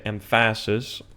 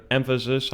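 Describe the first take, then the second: First: "emphasis" stressed on the middle syllable, em-FAS-is; wrong-syllable stress. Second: Said in the usual way. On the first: Shown as a demonstration. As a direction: misplace the stress in "emphasis" onto "pha". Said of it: "I wouldn't say emphasis". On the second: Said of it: "is on the first syllable".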